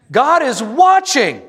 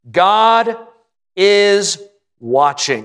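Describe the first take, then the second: First: Pastor's climactic pulpit cry; booming proclamation. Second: Measured, word-by-word warning; paced pauses. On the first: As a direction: thunder it out to the congregation. Repeats the key line bigger. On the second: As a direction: pause after "God" and after "is", then drop on "watching". Preacher's key line. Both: Acted.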